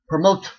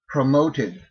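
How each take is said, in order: First: The ending is squeezed on without a vowel. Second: The ending adds a vowel before the d. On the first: The speaker calls it wrong. "Try pronouncing it without putting a vowel in there" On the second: The speaker calls it right. "pronounce the vowel plus a soft D consonant"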